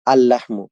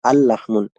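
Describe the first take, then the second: First: "আল লাহমু" ending on plain u; no tanween. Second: "আল লাহমুন" ending in an n; impossible tanween form. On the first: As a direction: end "লাহমু" without an n. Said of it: "তানবিন থাকবে না". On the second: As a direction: close "লাহমুন" on -un despite the "আল". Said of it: "এটা কখনোই সম্ভব হবে না". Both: Shown as a demonstration.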